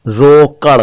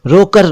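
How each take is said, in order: First: रोकड़ ending in a flapped retroflex ड़; careful flap. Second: रोकर with a plain tapped र at the end; wrong version. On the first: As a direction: land रोकड़ on a flicked ड़, not र. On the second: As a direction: say रोकर as the mistake, plain r ending. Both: Shown as a demonstration. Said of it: "रोकर नहीं".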